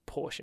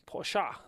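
First: The word ends without a final vowel sound. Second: The word ends with a final vowel sound.

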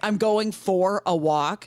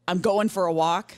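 First: The word 'for' is fully enunciated. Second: The word 'for' is reduced to 'fur'. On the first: The speaker calls it right. "instead of" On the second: The speaker calls it wrong. "If you said fur"

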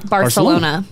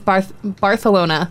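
First: It is pronounced the usual English way. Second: It is pronounced the way Spanish speakers say it. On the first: This is how English speakers say it. "But we say" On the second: This is how it is said in Spain. "But it's Barcelona"

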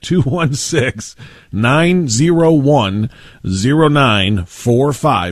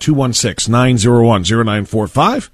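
First: The number is said slowly. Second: The number is said fast.

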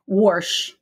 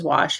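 First: The word has an r sound before the sh. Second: The word has no r sound before the sh. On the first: This is how a Kansas City speaker says it. "Warsh. He never says wash" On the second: This is the form the Kansas City speaker never uses. "He never says wash"

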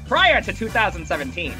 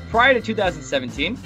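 First: It is read in a put-on host voice. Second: It is read in an ordinary speaking voice. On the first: "Classic voice. Here we go" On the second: "I will read it again in a normal voice"

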